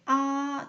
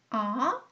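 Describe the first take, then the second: First: The pitch stays high and level. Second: The pitch rises from middle to high. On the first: "오에서 오 평평하게" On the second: "삼에서 오로 밑에서 올라가는 거예요"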